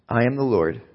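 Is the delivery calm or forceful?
calm. It is read in a calm, plain way. The speaker calls it wrong. "I think God didn't say it like that"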